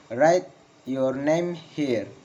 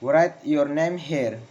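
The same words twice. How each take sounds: First: Very slow, word by word, "here" falling; slow falling intonation. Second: Connected command, falling on "here"; falling intonation. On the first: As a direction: spell out the command slowly for learners. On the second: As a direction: model the instruction, "here" dropping. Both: Shown as a demonstration. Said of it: "Failing intonation in comments".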